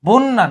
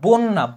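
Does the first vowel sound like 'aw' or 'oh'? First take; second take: aw; oh. First: The first vowel is an open 'aw' sound. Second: The first vowel is a rounded 'oh' sound. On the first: The speaker calls it wrong. "বন্যা না" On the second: The speaker calls it right. "এটা হবে বন্যা"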